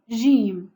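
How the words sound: It is said with the classical 'dj' pronunciation. This is the form required for reciting scripture. The speaker calls it right. "pour lire le Coran, on doit prononcer Jim"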